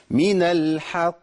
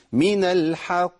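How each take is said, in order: First: من الحق slow with a strong qaf bounce; slow correct stop on الحق; correct qalqala. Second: من الحق slow, qaf turned to a hamza; mock common mistake; wrong glottal qaf. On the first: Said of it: "ده الصح". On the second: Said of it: "تنفع قاء دي". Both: Shown as a demonstration.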